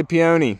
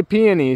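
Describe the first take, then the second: First: Peony said pee-OH-nee; peony, second pronunciation; peony other way. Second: Peony said PEE-uh-nee; peony, first pronunciation; peony one way. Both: Shown as a demonstration. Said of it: "I've heard it both ways".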